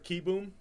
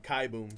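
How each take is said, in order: First: The first syllable has an 'ee' vowel. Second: The first syllable has an 'eye' vowel. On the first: The speaker calls it right. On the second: The speaker calls it wrong.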